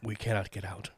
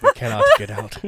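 First: Soft, mock-ominous quote; ominous murmur. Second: Loud, playful doom quote; mock-dramatic declaration. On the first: Ominous line, repeated louder later. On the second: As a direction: call out the grim line over the laughter. Same ominous line over laughter.

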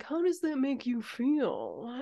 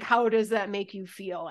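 First: Slow, put-on therapist voice; mock therapist. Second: Sincere, unaffected question; truly meant. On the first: Podcaster sending up herself as her friends' therapist, slow mock concern. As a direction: draw it out like a hammed-up therapist. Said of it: "I just sound like a therapist". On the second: Shown as a demonstration. Podcaster dropping the therapist act to truly ask, sincere. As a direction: ask it in earnest, in your own voice. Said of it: "but truly".

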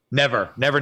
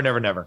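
First: Both NEVER rising, emphatic; Never, never said with a rising tune. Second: Never, never falling low and softer; final falling tone. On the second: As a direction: drop the tune on never, never. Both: Real, not acted. Emphatic repeated refusal.

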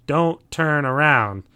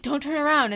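First: Slow, firm warning. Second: Mock movie warning. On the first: Retold or imitated. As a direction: drag it out as a grave warning. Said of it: "he says to everyone else". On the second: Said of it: "show's like".

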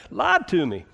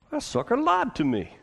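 First: Put-on repeated in Southern accent; short Southern drawl. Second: Put-on indignant Southern accent, high. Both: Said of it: "You gotta say it in a southern accent".

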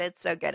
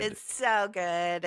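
First: Said in the usual way. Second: Slow emphatic. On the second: Real, not acted.

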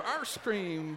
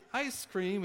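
First: "arse cream" with a drawn-out R-coloured first vowel; "arse cream", slow, ending in an S sound before "cream"; misheard pronunciation. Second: Said in the usual way. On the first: Retold or imitated. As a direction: stretch "arse cream" slowly, vowel as in "car". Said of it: "He thought he said derriere cream". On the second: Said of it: "but it was ice cream".

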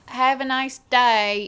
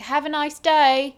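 First: Slow, louder put-on British voice; retry the British farewell, still lands Australian; imitating British staff saying goodbye again; mock British accent, second try. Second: Louder, slow, put-on British voice; bad attempt at a British shop farewell; hammed-up British goodbye from the staff; mock British accent. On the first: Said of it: "No, that's still Australian". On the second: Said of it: "That was an Australian".

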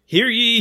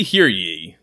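First: Booming town crier call. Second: Lower, loud second call; town crier. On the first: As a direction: cry it out to the square. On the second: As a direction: bellow it like a herald. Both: Acted. Medieval ad read as decree.

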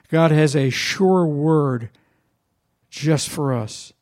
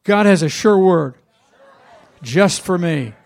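First: Slow, weighty, each word set down; "sure" drawn out and leaned on; slow declaration. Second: Louder affirmation. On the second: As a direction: lead the congregation, louder, with "has" punched. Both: Shown as a demonstration.

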